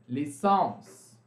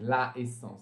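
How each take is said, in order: First: The article merges into the noun as a single l. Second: The article la is said fully before the noun. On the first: The speaker calls it right. "Vocês vão precisar juntar com o apóstrofo" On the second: The speaker calls it wrong. "vocês não podem falar assim"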